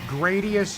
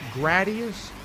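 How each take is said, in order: First: The first syllable sounds like 'grade'. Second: The first syllable sounds like 'grad'. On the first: The speaker calls it right. "I think it's pronounced Gradius" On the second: The speaker calls it wrong. "not Gradius"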